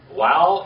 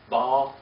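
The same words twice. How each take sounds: First: It is said with the biblical Hebrew pronunciation. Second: It is said with the modern Hebrew pronunciation. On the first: "in biblical Hebrew" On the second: "in modern Hebrew"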